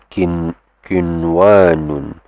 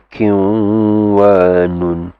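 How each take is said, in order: First: The n sound is pronounced clearly and separately. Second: The n sound merges into the following w. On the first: The speaker calls it right. "this is kin kinwanun ... It will be just pronounced clearly" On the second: The speaker calls it wrong. "this will not be kinwanun"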